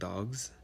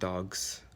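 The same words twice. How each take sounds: First: The g is heard and it ends in z. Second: The g is dropped and it ends in s. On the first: "you either said the Z sound, like dogs, has a little Z on the end" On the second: "the G is not really there anymore, but you got the S sound"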